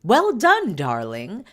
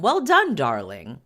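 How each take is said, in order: First: High, loud gushing well done darling; posh praise. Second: Posh praise. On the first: Nanny praising Harry after his first hunt, gushing high and loud. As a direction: gush it out like an upper-class nanny. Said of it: "telling him". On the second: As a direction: coo it like a proud posh nanny. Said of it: "Tiggy told him". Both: Retold or imitated.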